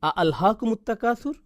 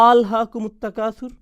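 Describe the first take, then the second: First: An extra glottal 'a' sound opens the phrase. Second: The phrase opens directly without an extra 'a'.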